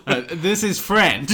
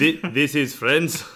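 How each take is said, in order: First: Put-on Eastern European accent. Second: Put-on laughing Eastern European accent; vaguely Eastern European accent. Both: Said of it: "I went for a vaguely Eastern European accent".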